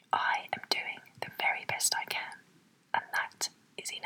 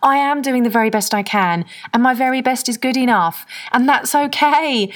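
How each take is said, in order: First: Whispered under the breath. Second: Uplifted affirmation. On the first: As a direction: whisper it to yourself. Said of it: "Say that to yourself right now". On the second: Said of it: "Even saying that to myself". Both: Shown as a demonstration.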